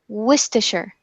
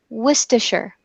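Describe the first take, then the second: The two takes are said the same way.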